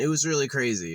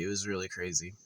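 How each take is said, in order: First: Said in the usual way. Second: Much softer repeat under the breath; quiet echo. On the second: Shown as a demonstration. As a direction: murmur it again to yourself.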